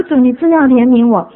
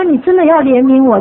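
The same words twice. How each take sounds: First: Louder, earnest cry for mercy; earnest plea. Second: Louder plea broken by a laugh. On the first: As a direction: begs the Lord for mercy in earnest. Repeats plea to the Lord. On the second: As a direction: begs the Lord for mercy while laughing at herself. Pleading prayer, laughing. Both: Retold or imitated.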